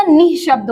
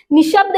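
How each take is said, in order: First: निःशब्द with an audible h, "nih-shabd"; correct form with visarga. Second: निशब्द with no h sound, "ni-shabd"; wrong form shown. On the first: Teacher corrects the word for students, निःशब्द with its visarga sounded. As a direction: breathe an h after "ni" in निःशब्द. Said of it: "विसर्ग के साथ आता है". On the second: Teacher rejects the misspelling for students, निशब्द without the visarga. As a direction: run "ni" straight into "shabd" in निशब्द. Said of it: "निशब्द नहीं होता". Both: Shown as a demonstration.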